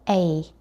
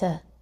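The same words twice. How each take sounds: First: The word is said fully, like 'ay'. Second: The word is reduced to a short 'uh'. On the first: The speaker calls it wrong. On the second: The speaker calls it right.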